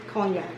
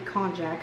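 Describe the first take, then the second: First: The middle consonant is a 'y' sound. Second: The middle consonant is a 'j' sound. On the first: "I think the J is yak. ... that's how I say it" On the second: "but it might be konjac"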